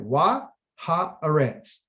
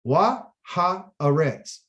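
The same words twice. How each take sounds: No difference in how they are said.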